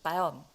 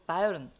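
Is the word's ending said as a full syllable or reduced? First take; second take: reduced; full. First: The ending is reduced and blended into one syllable. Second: The ending is said as a full extra syllable. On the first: The speaker calls it right. "사실 바이언 이 정도로 읽으시거든요" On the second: The speaker calls it wrong. "바이에른 이렇게 읽는단 말이에요. 바이에른도 아니에요"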